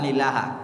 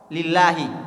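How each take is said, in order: First: The word ends with an a vowel. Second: The word ends with an i vowel. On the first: The speaker calls it wrong. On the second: The speaker calls it right. "huruf terakhir dari kata tersebut harus kasrah"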